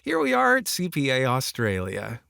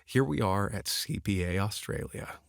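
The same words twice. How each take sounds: First: It sounds over-excited, like a salesy pitch. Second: It sounds grounded, calm and professional.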